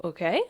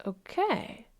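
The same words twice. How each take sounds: First: Short, questioning okay; checking in. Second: Softer, high, drawn-out okay; voice of the emotion. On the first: You checking on the emotion, gentle question. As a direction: check in with a small rise. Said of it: "You go". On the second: Emotion settling after the check-in, soft acceptance. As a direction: give in slowly and quietly. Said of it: "the emotion's like". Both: Acted.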